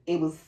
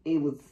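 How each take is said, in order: Both takes have the same delivery.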